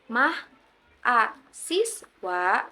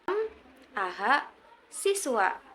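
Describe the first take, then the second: First: The word is broken after mah and a. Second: The word is broken after m and aha. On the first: "bukan mah, a, siswa" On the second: "apalagi m, aha, siswa"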